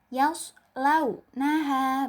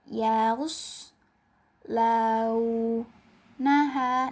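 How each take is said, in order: First: The syllables are clear and cut short. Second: The syllables are unclear and drawn out long. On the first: The speaker calls it right. "jelas dan tidak dipanjangkan atau singkat" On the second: The speaker calls it wrong. "selain tidak jelas, kemudian dipanjangkan"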